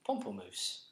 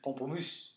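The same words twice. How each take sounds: First: It is said with an English accent. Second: It is said with a French accent.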